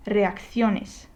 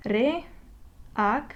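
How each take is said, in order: First: "reacciones" as one word, stressed on CIO; stress on next-to-last syllable. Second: "Reacciones" in separate syllables, long gaps between them. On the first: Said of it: "this is the syllable that is naturally stressed". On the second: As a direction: break "Reacciones" up as Re, ac, cio, nes. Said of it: "divide this word into syllables". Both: Shown as a demonstration.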